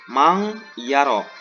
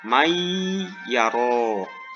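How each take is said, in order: First: The n is hidden as a nasal ng sound. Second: The n merges fully into a doubled y. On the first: The speaker calls it wrong. "ataupun ikhfa mang yaro" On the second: The speaker calls it right. "nun matinya dimasukkan ataupun dileburkan"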